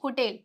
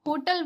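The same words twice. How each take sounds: First: "होटल" as ho-TEL, with a clear E; low, careful "होटल", second syllable said TEL; correct pronunciation. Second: "होटल" with a short schwa in the second syllable, HO-tuhl; "होटल" rhyming with total, no clear E; common mispronunciation. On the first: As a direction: model "होटल" with a full -tel ending. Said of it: "सही pronunciation क्या है". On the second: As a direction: say "होटल" wrongly, ending in a quick -tuhl. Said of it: "गलत है". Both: Shown as a demonstration.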